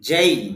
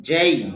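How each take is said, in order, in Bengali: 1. স্বরধ্বনিটি e থেকে i-এর দিকে গড়িয়ে যায়। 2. স্বরধ্বনিটি e থেকে i-এর দিকে গড়িয়ে যায়।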